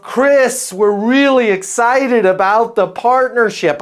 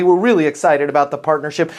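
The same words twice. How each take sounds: First: Put-on high-pitched, half-hearted French accent; bad French accent. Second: Said in the usual way. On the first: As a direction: imitate an excited French client, badly. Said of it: "I can't do a French accent". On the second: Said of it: "if I remember the email correctly".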